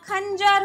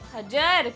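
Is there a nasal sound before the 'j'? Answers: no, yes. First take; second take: yes; no. First: It is said with a nasal before 'j'. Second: It is said with no nasal before 'j'. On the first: The speaker calls it right. "ख के ऊपर अंग की मात्रा" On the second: The speaker calls it wrong. "खजर नहीं होता"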